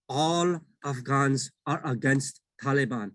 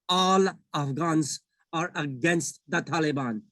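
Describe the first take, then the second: First: It is said at normal loudness. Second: It is said very loudly, screamed.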